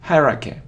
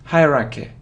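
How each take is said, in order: Both takes have the same delivery.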